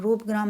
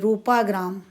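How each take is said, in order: First: No vowel comes between roop and gram. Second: A long aa vowel comes between roop and gram. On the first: The speaker calls it wrong. "रूपग्राम नहीं है ये" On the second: The speaker calls it right.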